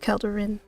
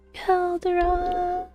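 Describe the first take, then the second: First: The last syllable sounds like 'rin'. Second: The last syllable sounds like 'ron'. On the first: The speaker calls it right. "Rin is the correct pronunciation" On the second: The speaker calls it wrong. "it's not Calderon"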